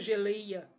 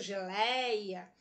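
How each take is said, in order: First: The stressed diphthong has a closed vowel. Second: The stressed diphthong has an open vowel. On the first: The speaker calls it wrong. "eu não pronuncio geleia" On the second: The speaker calls it right. "Eu abro para falar"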